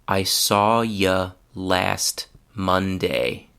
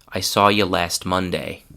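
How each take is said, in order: First: The sentence is spoken slowly. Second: The sentence is spoken at normal speed. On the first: "The first time I will speak slowly" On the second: "the second time will be at normal speed"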